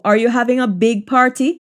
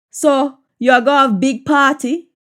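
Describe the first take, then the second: First: Said in the usual way. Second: Jamaican patois question, rising at the end. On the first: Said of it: "English version before patois". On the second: Shown as a demonstration. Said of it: "patois version of the line".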